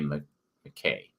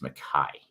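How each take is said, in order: First: The name ends with an 'ay' sound. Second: The name ends with an 'eye' sound. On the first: The speaker calls it wrong. "I'm a dumb American, so I want to say Stephen A. McKay" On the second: The speaker calls it right. "that Y is a sharper uh, I sound"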